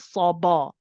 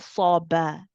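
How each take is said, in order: First: The ba is heavy like the s. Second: The ba is light after the s. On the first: The speaker calls it wrong. "you're not saying saw ba" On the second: The speaker calls it right. "that's followed by a light ba"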